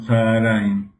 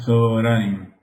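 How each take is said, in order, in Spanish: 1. La primera vocal se pronuncia como A. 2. La primera vocal se pronuncia como O. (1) "se lo escucha como Tzaharaim, pero no" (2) "la primera se pronuncia como O siempre"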